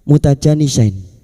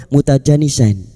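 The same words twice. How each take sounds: The two takes are said the same way.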